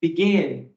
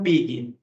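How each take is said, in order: First: "begin" stressed on "gin"; stress on second syllable. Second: "begin" stressed on "be", short "gin"; stress on first syllable. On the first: English teacher contrasting right with wrong, final-syllable stress on "begin". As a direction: make the last syllable "gin" of "begin" prominent. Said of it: "a entonação tá no gin". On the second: English teacher rejecting the wrong version, first-syllable stress on "begin". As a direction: put the weight on the "be" of "begin". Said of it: "a entonação está no bi". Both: Shown as a demonstration.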